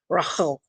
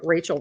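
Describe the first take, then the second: First: The name is said with foreign-sounding pronunciation. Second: The name is said in plain English pronunciation. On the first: It copies how someone else said it. "she's like Rachel with the and everything" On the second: It is the speaker's own everyday way of saying it. "I'm just going to say it in my own accent"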